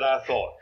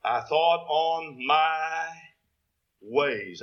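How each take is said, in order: First: Said in the usual way. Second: Slow, leaning hard on "my" in "I thought on my ways"; "my" stretched and weighted, falling at the end; stress on my. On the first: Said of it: "I want to emphasize the word". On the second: Shown as a demonstration. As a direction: drag it out and land on "my". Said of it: "I want to emphasize the word "my".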